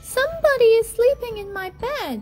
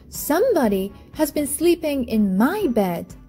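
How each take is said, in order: First: It is said in a wee little voice. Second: It is said in a middle-sized voice.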